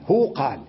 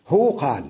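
The two takes are said the same way.

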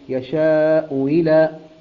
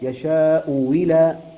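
First: The second glottal stop is softened toward a 'y'. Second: The second glottal stop becomes a 'w' with 'i'. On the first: "الهمزة الثانية مكسورة فسهلناها ما بين الهمزة والياء" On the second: "إبدال الهمزة الثانية واو مكسورة"

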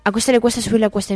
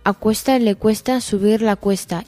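First: It is spoken at a fast speed. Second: It is spoken at a medium speed. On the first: "Rápido" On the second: "En medio"

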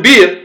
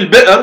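First: The glottal stop becomes a long i vowel. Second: The glottal stop is pronounced in the word.

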